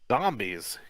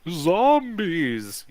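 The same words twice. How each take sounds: First: It is said in an ordinary, plain voice. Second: It is said in a spooky, eerie voice. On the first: The speaker calls it wrong. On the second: The speaker calls it right.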